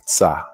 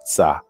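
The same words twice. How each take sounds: First: The consonants are run together in one syllable. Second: The same.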